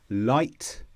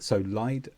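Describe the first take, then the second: First: The word ends with a clear T sound. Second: The word ends with a D-like sound. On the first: "usually we pronounce this ite" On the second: "In U S English, uh, sometimes the T becomes more like a D sound"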